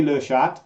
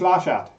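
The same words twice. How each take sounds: First: "Le Chat" with a schwa in Le; "le" pronunciation. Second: "La Chat" with an open ah in La; "la" pronunciation. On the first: Shown as a demonstration. Recalling her one French phrase from school, "Le Chat" said "luh sha". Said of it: "'cause I could say". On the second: Retold or imitated. Repeating Caroline's correction, "La Chat" said "lah sha". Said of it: "she told me it's".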